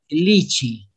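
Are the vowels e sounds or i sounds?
i sounds. Both vowels sound like i. "dicen lichi"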